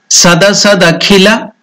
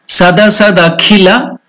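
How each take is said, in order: The two takes are said the same way.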